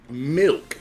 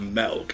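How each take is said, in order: First: The vowel is a higher 'ih' sound. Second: The vowel is a flatter 'eh' sound. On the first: The speaker calls it right. "milk with an I. It goes up" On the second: The speaker calls it wrong. "not milk. It's not flat"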